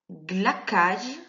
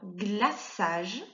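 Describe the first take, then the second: First: The middle consonant is a k sound. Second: The middle consonant is an s sound. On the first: The speaker calls it wrong. "Si tu ne mets pas le C cédille" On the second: The speaker calls it right. "permet de faire le son S devant le A"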